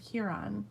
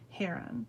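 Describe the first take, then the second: First: The first syllable sounds like 'hue'. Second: The first syllable sounds like 'hair'. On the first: The speaker calls it wrong. "I was always saying like um, Huron, like um, like Lake Huron" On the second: The speaker calls it right. "Heron, you said it right"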